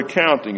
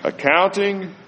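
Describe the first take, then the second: First: Said in the usual way. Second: "Accounting" lifted high and set apart; stress on accounting. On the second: Shown as a demonstration. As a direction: hit "Accounting" alone, high and soft. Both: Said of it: "that word accounting is very important".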